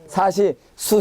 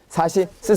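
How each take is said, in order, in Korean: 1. 마지막 음절은 둥근 'oo' 모음입니다. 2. 마지막 음절은 평평한 모음입니다. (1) "사시 수, 세, 소가 아니고" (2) "사시 스, 세, 소"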